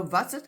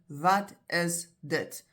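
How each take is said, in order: First: "That's it" slurred into "vatsit"; condensed casual pronunciation. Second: Slow "Wat is dit", three separate words; very clear enunciation. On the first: Teacher saying it's not a word, condensed. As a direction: say "That's it" as one run-together Afrikaans word, v at the start. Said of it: "it's how it comes out". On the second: Teacher pointing to the object asked about, very clearly. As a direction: spell out "Wat is dit" word by word, slowly. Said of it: "you'll say very clearly". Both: Shown as a demonstration.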